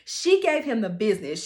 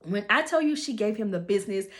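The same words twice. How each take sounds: First: "she gave him the business" hit louder; emphatic repeat. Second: Said in the usual way. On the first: Shown as a demonstration.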